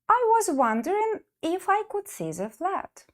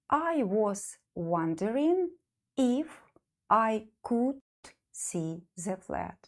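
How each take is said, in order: First: The sentence is said at normal speed. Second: The sentence is said slowly.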